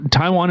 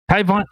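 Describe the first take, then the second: First: Said in the usual way. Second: High, badly faked Chinese accent; attempted Chinese accent. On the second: Shown as a demonstration. Reader quoting China's statement like them, botched Chinese accent. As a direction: try a Chinese accent on one word and fail. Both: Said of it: "I can't do a Chinese accent".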